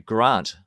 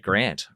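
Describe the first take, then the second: First: It is said in a New Zealand accent. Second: It is said in an American accent. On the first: "in New Zealand they say Grant" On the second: "Americans say Grant"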